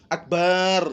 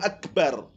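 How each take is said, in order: First: A vowel in the word is drawn out long. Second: The vowels in the word are kept short. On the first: The speaker calls it wrong. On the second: The speaker calls it right.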